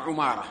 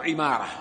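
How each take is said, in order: First: عمارة said ʕumāra, u after the ayn; عمارة as "ʕu-MAA-ra"; damma on the ayn. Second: عمارة said ʕimāra, i after the ayn; عمارة as "ʕi-MAA-ra"; kasra on the ayn. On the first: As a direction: open عمارة with a rounded "ʕu". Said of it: "يقول بضم العين". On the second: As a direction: open عمارة with "ʕi". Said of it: "يقول بكسر العين". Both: Shown as a demonstration.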